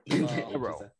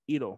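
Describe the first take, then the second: First: The name starts with an H sound. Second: The name starts without an H sound.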